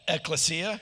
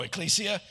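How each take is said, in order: First: Tentative ECCLESIA as ek-luh-SEE-uh; questioning ecclesia, short middle vowel; pronunciation ek-luh-SEE-uh. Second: ECCLESIA as ek-KLEE-see-uh; questioning ecclesia, stressed KLEE; corrected pronunciation. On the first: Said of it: "Or no, ecclesia?". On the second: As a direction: say ecclesia with a long "klee" in the middle. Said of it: "What does she say?". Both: Shown as a demonstration.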